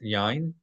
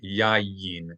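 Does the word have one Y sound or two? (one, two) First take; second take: one; two. First: The word has only one Y sound. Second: The word has two Y sounds. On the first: The speaker calls it wrong. "Not yain" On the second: The speaker calls it right. "but yayin. There are two consonant Y's"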